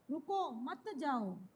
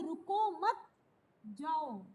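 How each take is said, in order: First: There is a pause right after 'रुको'. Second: There is a pause right after 'मत'.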